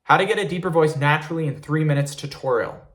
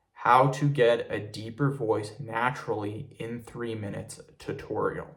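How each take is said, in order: First: Rattled off quickly; really fast. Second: Slow, deliberate and unhurried; really slowly. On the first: Tutor showing viewers the title said fast. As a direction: rush through the title in one breath. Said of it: "I'm gonna say it really, really fast". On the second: Tutor showing viewers the title said slowly for a deeper voice. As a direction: draw out each word calmly. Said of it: "I'm gonna say it really slowly". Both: Shown as a demonstration.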